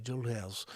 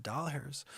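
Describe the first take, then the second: First: Soft German-accented delivery. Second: Said in the usual way. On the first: Shown as a demonstration. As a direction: say "Doll hairs" with a quiet German accent. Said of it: "did it with a German accent". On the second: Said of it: "I thought it was dollars, but I said".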